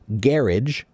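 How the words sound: It is pronounced the British way. "British people say garage"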